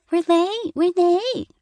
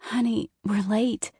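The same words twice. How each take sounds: First: Much higher and louder, a child's mocking parrot; mocking high-pitched voice. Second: Mild pleading mother, a little higher. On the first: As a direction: mimic mom in a squeaky taunt. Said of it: "imitating her high-pitched voice". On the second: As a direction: gently beg the child to hurry. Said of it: "she pleaded". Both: A narrator's reading.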